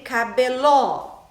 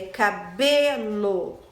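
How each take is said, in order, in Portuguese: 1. O acento está na última sílaba. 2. O acento está na sílaba do meio. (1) "e nem cabeló" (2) "É cabelo. ... É a sílaba B"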